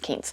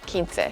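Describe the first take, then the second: First: It is said the general, non-Texan way. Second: It is said the South Texas way. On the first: This is how most people elsewhere say it. "out in the rest of the world, it's pronounced Quince" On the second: This is how locals in South Texas say it. "Where I'm from in South Texas, it would be pronounced Quince"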